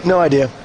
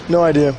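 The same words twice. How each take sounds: The two takes are said the same way.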